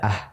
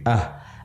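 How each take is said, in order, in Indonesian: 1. Bunyi h itu ringan dan tipis. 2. Bunyi h itu berat dan dalam. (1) "tidak ah" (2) "Lebih berat suaranya, tapi ah"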